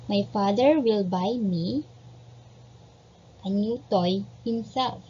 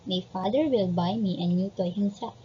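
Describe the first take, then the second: First: Measured teacher dictation; slow dictation. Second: Said in the usual way. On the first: Shown as a demonstration. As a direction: dictate it clearly for the class to copy.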